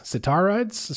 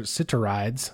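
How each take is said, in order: First: "Sitarides" pitched up, with an open AH, sit-AR-ides; questioning second attempt. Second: "Sitarides" with a reduced second syllable, SIT-er-ides; tentative pronunciation. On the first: Host unsure of a listener's name, "Sitarides" as questioning sit-TAR-ides. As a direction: query "Sitarides" higher, with a full "tar" in the middle. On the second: Host reading a listener's name, "Sitarides" tentatively as SIT-er-ides. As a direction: say "Sitarides" low, the middle vowel swallowed into an r. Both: Real, not acted. Trying readings of unfamiliar surname.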